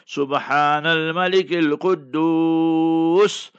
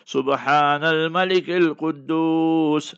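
First: It is said slowly and drawn out. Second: It is said at normal length.

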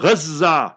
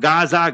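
First: The z sound in the middle is doubled. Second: The z sound in the middle is short. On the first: The speaker calls it right. "So there's a shadda tajdeed there" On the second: The speaker calls it wrong. "Don't come Gaza"

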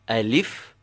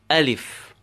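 First: The stress is on the second syllable. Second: The stress is on the first syllable. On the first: The speaker calls it wrong. "instead of saying alif" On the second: The speaker calls it right. "press the a and say alif"

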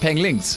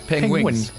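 First: An extra L sound comes after the G. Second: A W-like sound comes after the G. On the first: The speaker calls it wrong. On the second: The speaker calls it right.

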